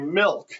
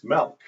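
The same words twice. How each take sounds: First: The L sound is clearly pronounced. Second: The L sound is not clearly pronounced. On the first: The speaker calls it wrong. "I'd pronounce the L" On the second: The speaker calls it right. "She said, no, it's milk"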